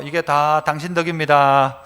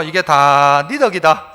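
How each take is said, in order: First: Said in the usual way. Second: "이게 다 네 덕이다" slow, in Gyeongsang dialect. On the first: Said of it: "한 번만 더 할게요". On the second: Shown as a demonstration. 목사가 성도들에게 경상도 말로 다시 말해 줌. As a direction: say it again the Gyeongsang way, slowly. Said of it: "경상도 말로 다시요".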